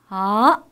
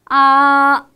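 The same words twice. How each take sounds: First: The pitch rises from middle to high. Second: The pitch stays high and level throughout. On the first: "이성의 소리입니다" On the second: "일성의 소리입니다. ... 높고 평평한 음을 처음부터 끝까지 길게 유지"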